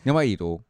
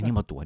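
First: It is said in an exaggerated, fierce tone. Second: It is said in a milder, questioning tone.

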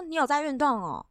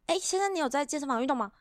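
First: It sounds casual and relaxed, like chatting with friends. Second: It sounds pushy and purposeful, like a salesperson.

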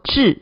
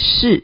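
First: The word begins with a stopped 'zh' sound. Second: The word begins with a hissing 'sh' sound. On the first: The speaker calls it right. "应该念作致" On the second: The speaker calls it wrong. "我们不念是"

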